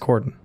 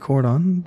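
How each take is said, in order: First: It is pronounced the plain English way. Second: It is pronounced the French way, as in cordon bleu. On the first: The speaker calls it right. "but it's it's cordon" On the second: The speaker calls it wrong. "I keep pronouncing it like it's cordon bleu"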